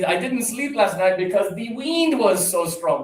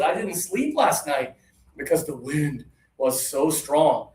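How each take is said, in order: First: The vowel in 'wind' is a long 'ee'. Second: The vowel in 'wind' is a short 'i'. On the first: The speaker calls it wrong. "But a lot of students say" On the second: The speaker calls it right. "A lot of my friends said"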